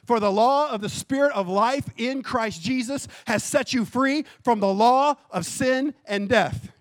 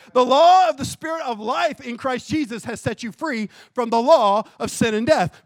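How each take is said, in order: First: Said in the usual way. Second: The law read again, louder and pressed; emphatic reread. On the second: Acted. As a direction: hammer "The law of the Spirit of life" home louder. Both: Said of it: "Did you hear this?".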